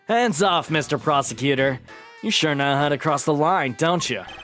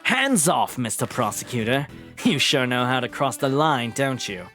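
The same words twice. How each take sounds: First: It is said in an American accent. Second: It is said in Van Zyke's voice.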